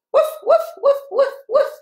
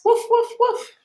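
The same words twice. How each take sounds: First: High playful woofs; bright bouncy barking; short happy barks. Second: High little woofs; quick cheerful yaps; short little barks. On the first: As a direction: yap like a happy little dog. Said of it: "Can you do some short, happy barks?". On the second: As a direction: bark like a tiny happy dog. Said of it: "doing his short little barks". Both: Pretend.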